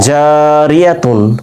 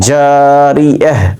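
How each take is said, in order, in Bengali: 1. শব্দটি পুরো -tun উচ্চারণে শেষ হয়। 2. শব্দটি মৃদুভাবে h উচ্চারণে শেষ হয়। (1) "মিলে পড়লে জারিয়াতুন" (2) "থেমে গেলে কি হবে বলেন তো?"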